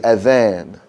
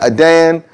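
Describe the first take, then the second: First: The middle consonant is a soft th sound. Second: The middle consonant is a hard d sound. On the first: It is the call to prayer. The speaker calls it right. "That's a soft T H sound, like the word this or that" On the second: It means to condemn something. The speaker calls it wrong. "Adan is wrong"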